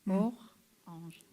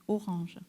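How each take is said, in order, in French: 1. Le mot est coupé par une pause au milieu. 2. Le mot est prononcé d'un seul bloc, sans coupure.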